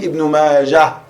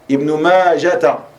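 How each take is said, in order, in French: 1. Le nom se termine sur un son h final bloqué. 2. Le nom se termine par un son « ta » ajouté à la fin. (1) "On dit Ibn Majah. Tu t'arrêtes dessus, Sukun" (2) "beaucoup d'erreurs chez certaines personnes qui prononcent Ibn Majata"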